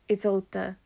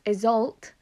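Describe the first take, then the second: First: The name ends in a separate d sound. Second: The name ends in a plain t sound. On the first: This is the German form of the name. "which is more German. ... it separates the DE into a separate sound instead of just being the T" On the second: This is the Middle English form of the name. "which is more Middle English"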